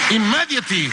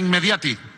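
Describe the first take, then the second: First: The word ends in an English 'tly' sound. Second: The word ends in a Spanish-like 'ti' sound. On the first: The speaker calls it right. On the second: The speaker calls it wrong.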